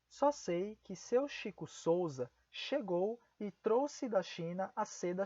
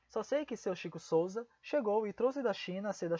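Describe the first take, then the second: First: The sentence is spoken at a slower pace. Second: The sentence is spoken at a faster pace.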